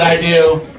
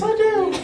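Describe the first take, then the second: First: Spoken in the speaker's ordinary voice. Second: Spoken in a put-on high, girlish voice. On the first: The groom is saying his vow. "I said" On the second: The bride is saying her vow. "I said in a girl voice"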